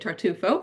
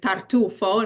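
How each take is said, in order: First: It is said with an English pronunciation. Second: It is said with an Italian pronunciation.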